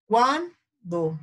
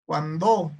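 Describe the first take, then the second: First: "Cuando" stressed on the first syllable, CUAN-do; acento en CUAN. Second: "cuando" wrongly stressed on the last syllable, cuan-DÓ; acento en DO. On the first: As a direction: hit CUAN high, then drop "do". ("Cuando" con acento en CUAN) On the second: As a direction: push the stress onto DO. ("cuando" con acento final, cuan-DÓ) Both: Shown as a demonstration. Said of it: "¿cuál será?".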